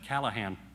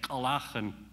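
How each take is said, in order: First: The middle consonant is a plain, softer sound. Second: The middle consonant is a harsh throat sound. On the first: "instead of" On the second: "Indian standards of pronunciation prevailed as the best way to say words"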